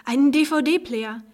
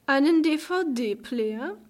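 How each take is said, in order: First: "Einen D-V-D-Player" drawn out slowly and louder, letters spelled out; proud reveal. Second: "Einen D-V-D-Player?" very slowly, higher, rising in scorn; mocking. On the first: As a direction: savour "D-V-D-Player" like a grand surprise. Proud reveal of his gift. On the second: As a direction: sneer "D-V-D-Player" back as if it were laughable. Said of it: "tönte eine höhnische Stimme". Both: A narrator's reading.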